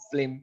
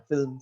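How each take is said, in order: First: ফিল্ম said "flim", the l jumping forward; swapped consonants. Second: Said in the usual way. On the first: Shown as a demonstration. Teacher showing how letters swap places, ফিল্ম turned into "flim". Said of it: "এই যে এরকম যেটা". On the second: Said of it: "আগের letter পরে চলে আসে".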